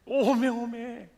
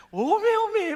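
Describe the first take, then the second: First: Slow drawn-out Jeolla "오메, 오메"; lingering Jeolla amazement; slow Jeolla exclamation. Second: High, loud Jeolla "오메, 오메" cried out; hammed-up Jeolla wonder; Jeolla exclamation. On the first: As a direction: savor the Jeolla sigh slowly. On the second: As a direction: exclaim in Jeolla dialect with delight. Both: Shown as a demonstration. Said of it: "감탄사도요".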